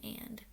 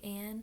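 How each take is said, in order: First: The final D sound is clearly pronounced. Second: The final D sound is left off. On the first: The speaker calls it right. "clearly articulating the D in and" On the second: The speaker calls it wrong. "a lot of people say an"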